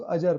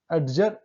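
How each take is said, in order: First: अजर with no d, "a-jar"; silent d. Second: अडजर with the d sounded before j; pronounced d. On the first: Teacher correcting for students, silent d in अजर. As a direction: go straight from the vowel to j in अजर. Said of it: "अजर पढ़ रहे हैं". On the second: Teacher showing students the mistake, d sounded in अडजर. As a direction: voice a hard d in अडजर. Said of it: "नहीं पढ़ रहे हैं उसको". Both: Shown as a demonstration.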